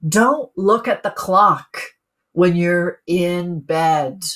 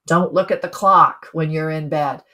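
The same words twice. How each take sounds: First: Slow, each word weighted, "dont" given a falling stress; a measured, emphatic instruction; slow, deliberate rule. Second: Said in the usual way. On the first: Shown as a demonstration. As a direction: lay out the rule slowly, word by word. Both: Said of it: "He said".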